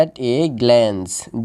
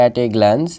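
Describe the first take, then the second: First: "at a glance" very slow, drawn out; teacher's slow model of "at a glance"; word by word. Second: "at a glance" run together as one unit; quick, connected "at a glance". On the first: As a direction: stretch out each word of "at a glance". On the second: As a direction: join "at a glance" without gaps. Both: Shown as a demonstration. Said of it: "এটা একসাথে আমাদের উচ্চারণ করতে হবে".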